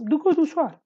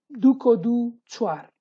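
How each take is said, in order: First: "Duko du chuar" quicker and higher, falling at the end; with intonation. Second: Said in the usual way. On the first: Shown as a demonstration. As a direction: lift "Duko du" high and loud, then drop on "chuar". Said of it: "you have to use intonation in this case". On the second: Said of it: "you have to use intonation".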